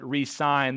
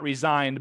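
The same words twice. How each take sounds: First: The middle consonant is an s sound. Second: The middle consonant is a z sound. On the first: The speaker calls it right. "but re-signed" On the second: The speaker calls it wrong. "not resigned"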